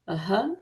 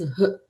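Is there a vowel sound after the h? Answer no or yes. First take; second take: yes; no. First: An 'a' vowel is added after the h. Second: A bare h breath with no added vowel. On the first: This is the southern way of saying it. "In South India, we say Aha. We add the A sound to it" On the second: This is the northern way of saying it. "the correct way of pronouncing Visarga is H, the half H"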